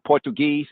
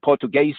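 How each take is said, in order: First: "Portuguese" said the usual English way, POR-tu-geez; plain English "Portuguese", ending in -geez; "Portuguese" as POR-tu-geez, three syllables; English pronunciation. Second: "Portuguese" said the Portuguese way, por-tu-GAY-see, four syllables; Portuguese pronunciation. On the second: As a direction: give "Portuguese" its native ending, -gay-see. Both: Shown as a demonstration. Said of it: "Portuguese or Portuguese".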